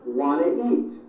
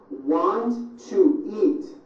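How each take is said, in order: First: The words are squeezed together into reduced sounds. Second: Each word is said separately and in full.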